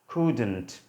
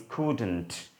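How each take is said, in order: Both takes have the same delivery.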